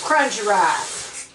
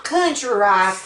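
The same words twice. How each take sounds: First: "crunchy" said slowly, with CR and CH sounded; corrected word. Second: "country" said slowly, without the R after the C; misheard word. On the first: Cook correcting country rice, slow, distinct "crunchy". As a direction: spell out "crunchy" by ear, slowly. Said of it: "Not country rice". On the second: Cook clearing up a misheard word, slow "country". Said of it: "but crunchy rice". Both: Shown as a demonstration.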